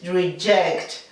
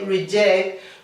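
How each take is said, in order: First: The middle consonant sounds like 'ch'. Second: The middle consonant sounds like 'g'. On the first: The speaker calls it right. "we have to pronounce the J as if it were a C H" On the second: The speaker calls it wrong. "we are pronouncing the J as if it were a G"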